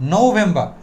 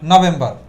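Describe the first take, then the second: First: The final r sound is silent. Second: The final r sound is pronounced. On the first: The speaker calls it right. "এখন থেকে কি বলবো? ... আরটা silent থাকবে" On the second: The speaker calls it wrong. "আমরা কি বলি?"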